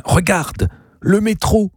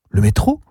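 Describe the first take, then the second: First: High-pitched, eager exclamation; sudden excited pointing. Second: Puzzled repeat in a normal register; questioning echo. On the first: Gabriel showing Zazie the metro, excited. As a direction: point out a marvel far away. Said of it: "ajouta-t-il brusquement en désignant quelque chose". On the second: Zazie questioning her uncle's discovery, doubtful echo. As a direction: echo it back as a question, rising at the end. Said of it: "Qu'elle fit?". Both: A narrator's reading.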